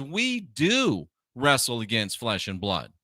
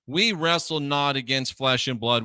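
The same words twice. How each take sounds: First: "do" stretched out with a rise and fall; stress on DO. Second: Said in the usual way. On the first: Real, not acted. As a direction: lean hard on "do" to contradict. Contradicting the verse just quoted.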